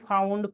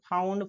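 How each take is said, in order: Both takes have the same delivery.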